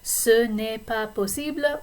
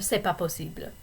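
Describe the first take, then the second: First: Said carefully, with the 'ne' fully pronounced. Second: Said casually, with the 'ne' left out. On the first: "say it really carefully" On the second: "drop the ne"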